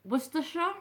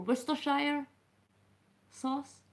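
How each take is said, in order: First: "Worcestershire" as wuss-ter-shuh, rising like a question; higher, questioning wuss-ter-shuh for "Worcestershire"; unsure pronunciation. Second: "Worcestershire" as wuss-ter-shire, ending like "shire"; tentative wuss-ter-shire for "Worcestershire"; alternative pronunciation. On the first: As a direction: try "Worcestershire" with a short shuh ending, unsure. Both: Shown as a demonstration. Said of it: "am I saying it wrong?".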